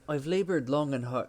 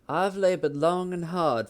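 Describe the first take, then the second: First: It is spoken in an Irish accent. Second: It is spoken in a Southern American accent. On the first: "nope, that's that's Irish" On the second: "I'm gonna do a Southern accent"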